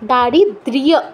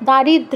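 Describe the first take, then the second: First: The word ends in a 'drya' sound with a glide. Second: The word ends in a plain 'dra' sound. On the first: The speaker calls it right. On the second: The speaker calls it wrong.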